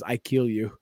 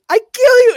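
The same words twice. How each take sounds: First: Said in the usual way. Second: Shouted, very high puppet catchphrase; Ahmed. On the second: Retold or imitated. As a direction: mimic a puppet's screeched threat. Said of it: "he goes".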